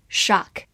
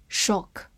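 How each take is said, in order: First: "shock" with an open American "ah" vowel; American "shock", vowel unrounded; American pronunciation. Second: "shock" with a rounded British short o; British "shock", lips rounded on the vowel; British-style pronunciation. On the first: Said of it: "美式发音". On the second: 美式发音shock. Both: Shown as a demonstration.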